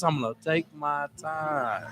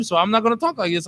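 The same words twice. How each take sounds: First: Slow, quiet, unhurried words; slow and soft. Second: Fast talk. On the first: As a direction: take your time, drop the volume. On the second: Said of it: "If I gotta talk like this". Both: Shown as a demonstration.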